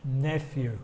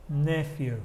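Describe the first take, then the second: No difference in how they are said.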